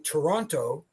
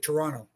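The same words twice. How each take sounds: First: The second t is clearly pronounced. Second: The second t is dropped. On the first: This is the formal, proper pronunciation. "pronounced properly" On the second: This is how locals say it. "if you're from here, you just say Toronto. It's almost like you forget the second T"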